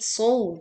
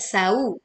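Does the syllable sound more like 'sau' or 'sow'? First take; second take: sow; sau. First: The syllable is said with a full 'o' sound. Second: The syllable is said with a thin 'au' sound. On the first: The speaker calls it right. "tetapi sow" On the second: The speaker calls it wrong. "hati-hati bukan dibaca sau"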